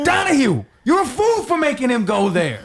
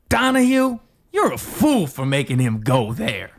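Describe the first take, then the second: First: It sounds angry. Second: It sounds sly and snarky.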